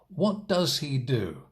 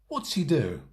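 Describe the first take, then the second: First: The word does is said in full. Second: The word does is contracted onto what.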